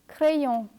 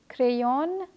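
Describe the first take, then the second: First: The ending is one nasal vowel, no n. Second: The final o and n are sounded separately. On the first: The speaker calls it right. "but say" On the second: The speaker calls it wrong. "don't say"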